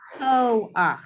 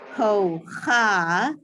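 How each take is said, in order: First: The a vowel comes before the final ch. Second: The a vowel comes after the final ch. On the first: The speaker calls it right. "we say" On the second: The speaker calls it wrong. "we don't say"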